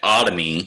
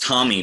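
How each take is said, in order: First: The word begins with an extra vowel sound. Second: The word begins directly with a T sound. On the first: The speaker calls it right. "but otomy" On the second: The speaker calls it wrong. "it is not pronounced Tommy"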